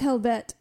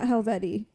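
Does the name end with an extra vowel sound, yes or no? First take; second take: no; yes. First: The name ends on the t sound. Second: The name ends with an extra ee vowel. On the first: This is the proper way to say it. The speaker calls it right. "Apparently it's Helvet" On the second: This is how it was said before. The speaker calls it wrong. "Not Helveti"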